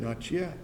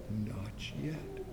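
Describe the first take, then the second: First: Said in the usual way. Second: Not yet breathed as a soundless whisper; mouthed whisper. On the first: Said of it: "he only nodded his head and said". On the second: Acted. Master mouths through the oven door, whispering. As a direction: barely mouth the words. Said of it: "I could read his lips".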